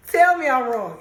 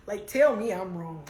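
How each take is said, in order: First: Louder repeat. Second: Said in the usual way. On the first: Shown as a demonstration.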